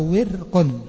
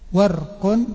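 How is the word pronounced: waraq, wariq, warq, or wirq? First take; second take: wirq; warq. First: It has i after w and no vowel after r. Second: It has a after w and no vowel after r. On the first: "بكسر الواو مع إسكان الراء" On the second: "بفتح الواو مع إسكان الراء"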